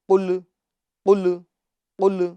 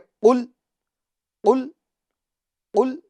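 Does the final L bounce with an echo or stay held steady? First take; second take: bounced; held. First: The final L bounces with a slight echo. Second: The final L is held steady without echo. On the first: The speaker calls it wrong. "इस तरह नहीं कहना है" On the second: The speaker calls it right. "बल्कि"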